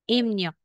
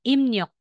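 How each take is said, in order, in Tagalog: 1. Ang gitna ay binibigkas na may tunog na 'mn'. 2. Ang gitna ay binibigkas na may tunog na 'mn'.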